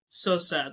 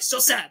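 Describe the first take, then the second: First: It is said slowly in a drawn-out tone. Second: It is said quickly and clipped. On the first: This is the usual way of saying it. "normally you go, hmm, like so sad" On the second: This was not the usual way of saying it. "that time you just did it so fast"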